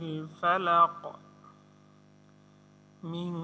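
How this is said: There is a stop after falaq. "আর যদি থামি"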